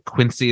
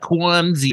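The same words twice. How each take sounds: First: The name is said in a standard accent. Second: The name is said in a Boston accent. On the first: The speaker calls it right. "Quincy is the real pronunciation" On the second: The speaker calls it wrong. "the trashy Boston pronunciation is like"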